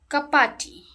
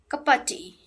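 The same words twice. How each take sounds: First: The word 'of' is reduced to a soft sound. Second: The word 'of' is reduced to a soft sound.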